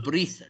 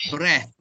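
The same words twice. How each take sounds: First: "breathe" with a voiced ending and a long ee; wrong voiced ending. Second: "Breath" ending in a voiceless th. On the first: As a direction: draw out "breathe" to a voiced end. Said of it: "so it's not breathe". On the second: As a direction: finish "Breath" on an unvoiced th. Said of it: "and also T H". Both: Shown as a demonstration.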